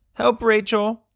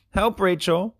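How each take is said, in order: First: Louder, higher urgent yell; yelling for help. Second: High call for help; crying out for help. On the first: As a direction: yell to Rachel, now desperate. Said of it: "Chad yelled". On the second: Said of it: "Chad cried". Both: A narrator's reading.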